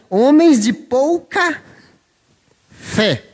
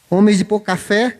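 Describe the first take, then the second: First: It is said slowly, words kept apart. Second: It is said fast, words running together.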